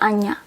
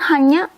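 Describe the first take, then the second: First: The word starts with a vowel, no h. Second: The word starts with an h sound. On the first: The speaker calls it wrong. "we cannot say anya" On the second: The speaker calls it right. "We have to say the H"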